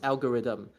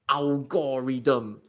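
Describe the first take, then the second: First: The word has its usual standard pronunciation. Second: The word has a distorted, unusual pronunciation. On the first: The speaker calls it right. "this is pronounced algorithm" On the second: The speaker calls it wrong. "butcher this word to become like algorithm"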